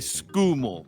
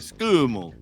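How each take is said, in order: First: The emphasis drifts toward the back of the syllable. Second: The emphasis sits at the front of the syllable. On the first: The speaker calls it wrong. "it drifts towards the back of the syllable" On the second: The speaker calls it right. "it's got to be in the front of the syllable"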